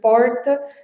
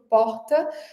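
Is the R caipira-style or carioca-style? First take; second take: caipira; carioca. First: The R is a retroflex caipira R. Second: The R is a light carioca R.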